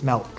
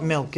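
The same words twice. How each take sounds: First: Milk said as "melk", softer and lower, the Maine way; New England accent. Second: Said in the usual way. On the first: Shown as a demonstration. Teacher contrasting her Maine "milk" for class. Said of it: "That's my New England accent". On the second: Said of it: "it's milk".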